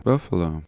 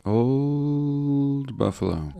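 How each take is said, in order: First: Said in the usual way. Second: Slow and high, savouring each word; drawn-out, wistful. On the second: Acted. Savouring the name of the old city, slow and high. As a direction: stretch out Old Buffalo, reminiscing.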